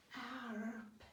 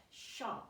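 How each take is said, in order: First: SHARP sounded out slowly and softly, sh... ar... p. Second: Said in the usual way. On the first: Shown as a demonstration. Teacher modelling a reader working it out, SHARP sounded slowly. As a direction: stretch "Sharp" sound by sound, quietly. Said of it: "that starts with sh". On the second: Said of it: "that must be sharp".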